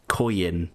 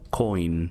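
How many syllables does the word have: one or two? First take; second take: two; one. First: The word is said with two syllables. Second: The word is said with one syllable. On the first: The speaker calls it wrong. "I pronounced it as if it has two syllables" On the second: The speaker calls it right. "it's supposed to be said like coin"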